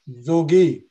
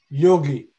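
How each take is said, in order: First: The word begins with a J sound. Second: The word begins with a Y sound. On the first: This is the Bengali way of saying the name. "Bangla mein pronunciation is vikrita. It is jogi" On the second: This is the Hindi way of saying the name. "Hindi mein ab bole yogi"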